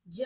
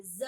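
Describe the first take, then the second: First: ज as English j; undotted ज, as in j; plain ज. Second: ज as English z; dotted ज, as in z; nukta ज. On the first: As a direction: say ज with a j stop. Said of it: "ज नहीं". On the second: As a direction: say ज with a buzzing z. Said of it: "यानी कि जेड बोलेंगे". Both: Shown as a demonstration.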